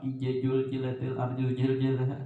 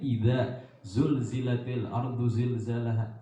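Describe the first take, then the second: First: The z sounds are pronounced as j. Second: The z sounds are pronounced as z. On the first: The speaker calls it wrong. "jangan sama ya kalau bilanya sama" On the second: The speaker calls it right. "itu padahal lain"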